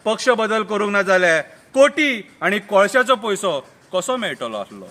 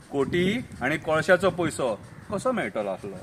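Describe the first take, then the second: First: Full-voiced line dropping at the end; declaimed verse. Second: Soft, low-pitched echo; low aside. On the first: Murgaon politician justifies switching party, declaimed. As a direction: declaim it, then let the last phrase fall. First take of repeated verse. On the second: Acted. Narrator repeats the coal money line, low aside. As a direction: drop it to a confiding undertone.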